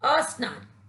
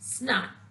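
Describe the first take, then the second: First: An extra 'a' vowel is sounded before the word. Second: The word starts directly with the 'sn' cluster. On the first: The speaker calls it wrong. "स्नान शब्द से पहले अ का प्रयोग करते हैं जिसके कारण इसका उच्चारण अशुद्ध" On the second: The speaker calls it right. "इसी को इसका शुद्ध उच्चारण माना गया है"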